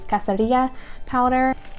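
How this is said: The word is said with a Spanish pronunciation. The speaker calls it right. "as it would be pronounced in Spanish"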